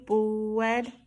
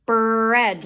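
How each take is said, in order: First: Bread said as "bwed"; "Bread" with W replacing R. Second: Bread with a long, strong R; "Bread" louder, R held after the B; R as in brr. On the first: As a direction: round into a long W inside "Bread". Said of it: "my lips come up for W". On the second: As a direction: open "Bread" like a shivering brr. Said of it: "Like brr". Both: Shown as a demonstration.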